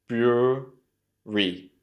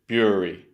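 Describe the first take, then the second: First: "Brewery" very slowly, broo... ree; syllable-by-syllable slow model of "Brewery". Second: Said in the usual way. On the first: Shown as a demonstration. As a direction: stretch "Brewery" into two separated syllables. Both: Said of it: "try and say it slowly".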